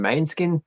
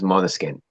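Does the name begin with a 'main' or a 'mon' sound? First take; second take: main; mon. First: The first syllable sounds like 'main'. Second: The first syllable sounds like 'mon'. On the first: This is how some locals casually say it. The speaker calls it wrong. "Australian bogans call them Mainskin" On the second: This is the band's proper name. The speaker calls it right. "The p- correct pronunciation is Monoskin"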